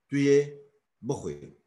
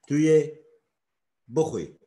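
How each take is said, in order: Both takes have the same delivery.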